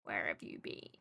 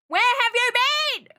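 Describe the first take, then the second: First: Much lower, softer, almost under the breath; quiet teasing repeat; hushed mock question. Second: High, loud, slow hammed-up demand; dragged-out playful outrage; loud stretched mock scolding; mock yell. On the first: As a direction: drop it to a murmur. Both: Repeats question, then whispers it.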